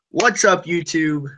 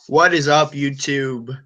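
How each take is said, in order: First: It is said with lively enthusiasm. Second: It is said flatly, without much energy.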